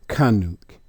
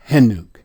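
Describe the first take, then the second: First: The name begins with a K sound. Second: The name begins with an H sound. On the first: The speaker calls it wrong. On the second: The speaker calls it right.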